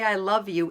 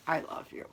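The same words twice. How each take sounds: First: Said in the usual way. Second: Breathy whispered "I love you". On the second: Shown as a demonstration. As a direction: whisper it close and soft. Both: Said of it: "in so many different tones".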